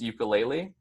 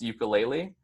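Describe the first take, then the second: First: It is said with common English pronunciation. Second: The same.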